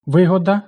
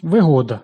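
First: Вигода as ви́года, first syllable hit; meaning "profit", so stress the start; наголос на першому складі. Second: Вигода as виго́да, middle syllable hit; meaning "convenience", so stress the middle; наголос на другому складі; stress on the second syllable. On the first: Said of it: "користь". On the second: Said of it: "зручність". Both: Shown as a demonstration.

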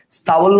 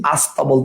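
First: "স্তাবল" starting straight on s-t; no vowel before "স্তাবল"; original form. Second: "আস্তাবল" opening on a clear a; a before the s-t in "আস্তাবল"; added opening vowel. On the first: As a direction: say "স্তাবল" as sta-bol. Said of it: "স্তাবল না বলে". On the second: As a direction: say "আস্তাবল" as as-ta-bol. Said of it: "আমরা বলতেছি আস্তাবল". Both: Shown as a demonstration.

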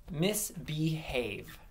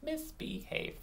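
First: "Misbehave" stretched over its three syllables; "Misbehave" slow, with each syllable distinct; slow clear word. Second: "Misbehave" softer and higher, in three beats; "Misbehave" as quiet, separate syllables; counting syllables. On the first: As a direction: give "Misbehave" slowly for others to clap out. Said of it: "I'm gonna say a word". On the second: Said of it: "Three syllables". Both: Shown as a demonstration.

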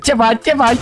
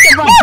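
First: Said in the usual way. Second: Jump-scare yell at the hider; startling shriek. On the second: Acted. Catching his friend hiding, a sudden high shriek. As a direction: shriek it much higher and louder.

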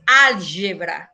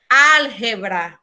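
First: Álgebra the Portuguese way; Portuguese pronunciation. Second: Álgebra with a throaty h for the g, slowly; Álgebra with the raspy Spanish jota; Spanish pronunciation. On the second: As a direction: say Álgebra as alhebra. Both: Shown as a demonstration. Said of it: "Para vocês em português é álgebra".

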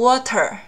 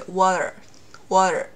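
First: Said in the usual way. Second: Voiced t demo; flapped t. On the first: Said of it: "我没有读water". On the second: Shown as a demonstration. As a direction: say water like wader. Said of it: "而是water".

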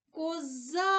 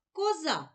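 First: Коза called higher with a long stressed за; Козааа, stress drawn out on the second syllable; calling out the word. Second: Said in the usual way. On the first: Shown as a demonstration. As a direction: call Коза as if hailing it, stretching the final а. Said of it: "Погукаємо слово". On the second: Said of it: "Промовимо всі звуки".

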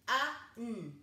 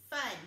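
First: F-A-N as the sounds f, uh, n; chopped-up sounds. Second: Said in the usual way. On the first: Shown as a demonstration. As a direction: chop F-A-N into three sounds with gaps. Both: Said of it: "and chop it up".

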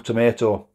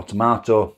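First: "tomato" pronounced to-MAY-to, long A. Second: "tomato" pronounced to-MAH-to, broad A. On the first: Vlogger offering two names for the sauce, "tomato" as to-MAY-to. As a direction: say "tomato" with an AY in the middle. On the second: Vlogger offering the other way to say it, "tomato" as to-MAH-to. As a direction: say "tomato" with an AH in the middle. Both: Shown as a demonstration. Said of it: "whatever you wanna call it".

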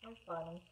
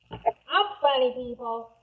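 First: Soft, low self-aside; quiet aside. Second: Proud announcement. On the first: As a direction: say it quietly to yourself. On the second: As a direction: declare it loudly to the audience. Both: Pretend. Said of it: "See what I did there?".

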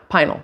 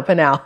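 First: Pinal said as PIE-nul; trying out a pronunciation. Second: Pinal said as puh-NAL; alternative pronunciation. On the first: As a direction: stress the first syllable of Pinal, rhyming with "final". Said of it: "I don't know if it's Pinal or Pinal". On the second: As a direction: stress the second syllable of Pinal, like "canal". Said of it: "I don't know". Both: Shown as a demonstration.

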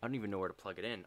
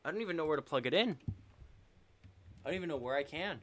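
First: Rushed, flustered under the breath; fast mutter. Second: Higher, louder, fast rising panic; panicked repeat. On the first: Streamer hunting for the cable with the controller dead, fast and flustered. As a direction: rattle it off fast while searching. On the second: Streamer still hunting for the cable as the round is lost, higher and louder panic. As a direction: push it up in pitch like rising alarm. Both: Real, not acted.

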